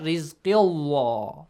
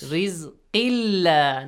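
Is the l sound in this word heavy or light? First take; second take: heavy; light. First: The l sound is thick and heavy. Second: The l sound is thin and light. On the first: The speaker calls it wrong. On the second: The speaker calls it right. "the letter lam of the word Allah is pronounced lightly"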